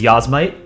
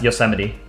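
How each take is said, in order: First: The word is said with three syllables. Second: The word is said with four syllables. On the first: The speaker calls it wrong. "the way that people will like intentionally mispronounce it" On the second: The speaker calls it right. "it's pronounced Yosemite"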